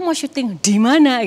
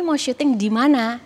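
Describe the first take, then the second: First: The D sound is pressed hard. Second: The D sound is light and smooth. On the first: It sounds like a regional accent. The speaker calls it wrong. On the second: It sounds like a neutral national accent. The speaker calls it right.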